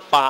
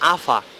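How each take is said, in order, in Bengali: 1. মাঝের ব্যঞ্জনটি একটি পি ধ্বনি। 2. মাঝের ব্যঞ্জনটি একটি এফ ধ্বনি।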